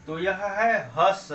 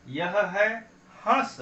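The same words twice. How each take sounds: First: Said in the usual way. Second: हंस said slowly with a light nasal vowel; nasal demo. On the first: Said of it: "अब उच्चारण यहाँ देखें". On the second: Shown as a demonstration. Teacher contrasting हस with हंस, slow nasal. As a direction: let हंस ring through the nose, slowly. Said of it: "केवल नाक का सहारा लेंगे".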